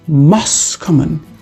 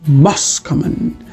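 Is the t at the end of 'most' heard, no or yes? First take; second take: no; no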